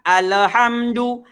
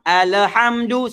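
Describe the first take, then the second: The two takes are said the same way.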